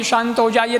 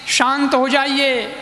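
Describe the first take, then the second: First: Said in the usual way. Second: Slow, soothing "शांत हो जाइए" with a falling end; slow calming plea. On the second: Retold or imitated. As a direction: gently hush an angry husband. Wife calms angry husband. (धीमे, शांत स्वर में "शांत हो जाइए")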